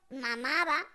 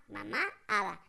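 First: "mamá Ada" blended into one word; run-together name. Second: "Mamá Ada" split by a pause; separated name. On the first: Children naming their mother, "mamá Ada" run together. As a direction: slur "mamá Ada" together so it sounds like "mamada". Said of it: "le dicen con orgullo". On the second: Clarifying the aunt's name, "Mamá Ada" separated. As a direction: pause clearly between "Mamá" and "Ada", lower. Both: Shown as a demonstration.

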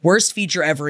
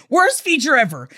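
First: Said in the usual way. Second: Worst hit hard and high, then falling; emphatic agreement. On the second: Real, not acted. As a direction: lean into Worst and drop to the end. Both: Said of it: "I completely agree with you".

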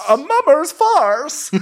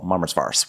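First: Very high, slow echo; mock outrage. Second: Said in the usual way. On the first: Podcaster echoing the insult, mock outrage. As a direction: repeat it high and drawn out, hammed-up.

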